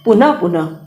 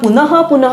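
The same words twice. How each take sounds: First: The visarga is softened to a half sound. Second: The visarga is said as a full h sound. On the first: The speaker calls it right. "ये जो उच्चारण कर रहे हैं ... उपध्मानीय कहलाएगा" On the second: The speaker calls it wrong. "पुनः पुनः नहीं करके"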